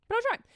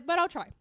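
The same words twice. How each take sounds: First: "But I'll try." jumps much higher and rises at the end; mock brave. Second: Said in the usual way. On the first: Talking to the dog, forcing a higher, hopeful end. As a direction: push yourself into forced cheer.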